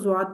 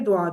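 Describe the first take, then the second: First: The word begins with a 'z' sound. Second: The word begins with a 'd' sound. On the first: This is the Pakistani way of saying it. "Pakistani लहजे में एशियन लोग जो है ना इसको जुआद पढ़ लेते हैं" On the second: This is the Arabic way of saying it. "अरब के सही लहजे में आप पढ़ें तो ये दुआद है"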